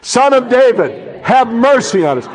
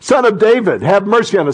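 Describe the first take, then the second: First: It is cried out loudly. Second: It is said in a normal reading voice.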